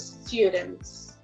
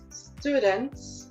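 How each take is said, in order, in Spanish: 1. Se dice con acento británico. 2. Se dice con acento americano. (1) "en el caso del británico" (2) "en el caso de americano es students"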